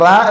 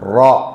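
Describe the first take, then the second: First: The r is light and thin. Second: The r is heavy and full. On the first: The speaker calls it wrong. "റാ എന്ന് പറഞ്ഞുകൂടാ" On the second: The speaker calls it right. "ഒന്ന് ഖനപ്പിച്ചിട്ട്"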